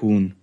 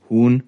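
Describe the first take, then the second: First: Said in the usual way. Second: "Huhn" raised with a rising end; questioning. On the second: A narrator's reading. Operator asks the authority to confirm, "Huhn" as rising question. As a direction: ask "Huhn" as a check for confirmation.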